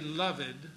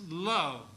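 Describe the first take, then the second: First: The word is said in two syllables. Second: The word is said in one syllable. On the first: The speaker calls it wrong. "Don't say loved" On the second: The speaker calls it right. "it's loved. The apostrophe indicates to merge this into a single syllable"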